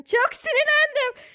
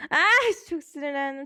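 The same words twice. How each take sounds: First: Much higher, louder, exasperated "Çok sinirlendim."; acted anger. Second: Said in the usual way. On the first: Shown as a demonstration. Teacher acts out being furious for the student, high and loud.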